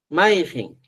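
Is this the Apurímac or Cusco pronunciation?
Cusco. It is said the Cusco way, ending -jen.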